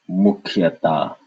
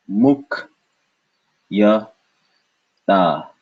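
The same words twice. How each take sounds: First: Said in the usual way. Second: "Muk, ya, ta" with long gaps between syllables. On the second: Shown as a demonstration. Teacher splitting for learners, "Muk, ya, ta" in separate beats.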